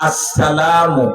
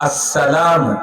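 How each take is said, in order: No difference in how they are said.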